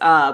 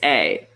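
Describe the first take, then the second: First: The vowel is a short reduced 'uh' sound. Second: The vowel is a full 'ay' sound. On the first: It is used inside a sentence. "I think in sentence it's uh" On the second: It is said alone to single it out. "alone when I'm saying distinguishing it. It's a"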